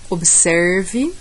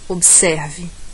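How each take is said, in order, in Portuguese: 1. É dito com sotaque do interior paulista. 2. É dito com sotaque nordestino brasileiro. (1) "Interior paulista"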